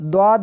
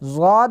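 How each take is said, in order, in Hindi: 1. अक्षर का नाम d जैसी ध्वनि से शुरू होता है। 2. अक्षर का नाम z जैसी ध्वनि से शुरू होता है। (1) "और द्वाद भी पढ़ते हैं" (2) "इसको ज़ाद भी पढ़ते हैं"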